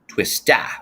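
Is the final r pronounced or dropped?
dropped. It is said in a New England accent, dropping r.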